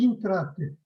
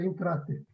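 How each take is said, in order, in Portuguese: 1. A palavra começa com som de 'i'. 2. A palavra começa com som de 'e'.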